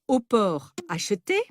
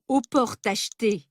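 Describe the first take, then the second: First: The words are said without a linking sound. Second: An extra linking sound joins the words. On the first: The speaker calls it right. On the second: The speaker calls it wrong. "On ne dit pas"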